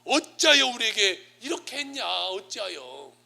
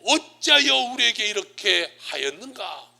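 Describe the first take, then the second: First: Acted reproach, starting high and loud, then dropping; mock parental protest, high start; indignant complaint. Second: Slow, raised declamation; stately, forceful Bible quotation; scripture quote. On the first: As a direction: burst out with displeasure, then let it fall. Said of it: "불만을 팍 표출하는 거예요". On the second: Retold or imitated. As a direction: quote scripture loudly and slowly, drawing out the words. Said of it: "오늘 성경에 뭐라고 말해요?".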